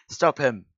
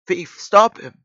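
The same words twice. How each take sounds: First: Raised, urgent call. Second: High, loud alarmed shout; urgent shout. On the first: Policeman chasing a thief, first urgent call. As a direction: call out to halt someone. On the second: Policeman chasing a thief, loud high shout. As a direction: shout it down the corridor. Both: Acted.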